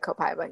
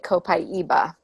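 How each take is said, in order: First: The word is pronounced the American way. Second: The word is pronounced the Brazilian way. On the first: This is how most people say it in America. "But in America, we most people say" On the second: This is how it is said where the oil comes from. "if you're from Brazil, which is where the oil comes from, you would say"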